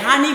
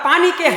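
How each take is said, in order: First: The word begins with an H sound. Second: The word begins with a P sound.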